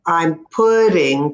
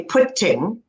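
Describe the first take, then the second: First: "putting" with the T said like a quick D, "pudding"; slow down and flap the T in "putting"; flapped T. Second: "putting" with a crisp, aspirated T; "putting" with a sharp T; hard T. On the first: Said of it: "I said putting". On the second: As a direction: spit out the T in "putting". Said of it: "I did not say putting". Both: Shown as a demonstration.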